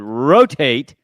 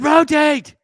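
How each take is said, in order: First: It is said at normal loudness. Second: It is said loudest, almost shouted.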